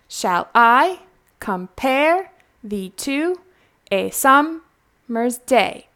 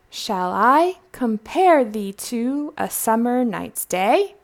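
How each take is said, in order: First: Every second syllable is hit hard and evenly. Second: The line flows with ordinary, relaxed speech rhythm. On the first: It shows where the metrical stresses fall. The speaker calls it wrong. "do you see the stressed part of that?" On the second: It is how the poem should be read. The speaker calls it right. "you want to read it naturally"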